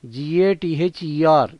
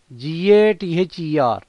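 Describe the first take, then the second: No difference in how they are said.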